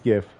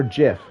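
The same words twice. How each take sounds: First: Gif said with a hard G, like gift; gif with a hard G, rhymes with if. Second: Gif said as jif, soft G like giraffe. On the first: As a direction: start gif on a hard G sound. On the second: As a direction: correct yourself to jif for gif. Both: Shown as a demonstration. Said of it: "I always say gif".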